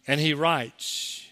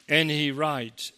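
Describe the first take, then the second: No difference in how they are said.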